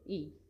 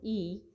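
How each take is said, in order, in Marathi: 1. स्वर ऱ्हस्व आणि तुटक उच्चारला जातो. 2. स्वर दीर्घ आणि लांब ओढून उच्चारला जातो. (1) "तो ऱ्हस्व आहे, त्याचा उच्चार जागच्या जागेवरच होतो" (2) "त्याचा उच्चार दीर्घ होतो, म्हणजेच लांब होतो"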